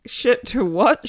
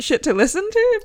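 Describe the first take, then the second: First: Said in the usual way. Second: "Shit to listen to?" said much higher; rising high on "Shit to listen to?"; higher pitch. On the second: Shown as a demonstration.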